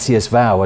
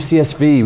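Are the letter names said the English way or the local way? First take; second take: local; English. First: The letters are given their local names. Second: The letters are given their English names. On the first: "as I know most people call you here" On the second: "I'm English. I call you CSV"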